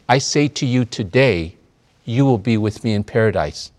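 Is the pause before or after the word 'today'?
after. The pause comes after the word today. The promise is made today, not the arrival. The speaker calls it right. "There's a difference between assuredly, I say to you today"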